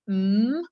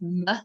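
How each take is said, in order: First: The sound is a pure hum with nothing added. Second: The sound ends with an added uh vowel. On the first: The speaker calls it right. "the sound is M" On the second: The speaker calls it wrong. "a mispronunciation of that is M with like an uh on the end"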